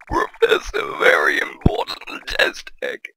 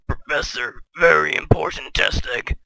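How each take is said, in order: First: It is said in a put-on character voice. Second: It is said in his normal voice.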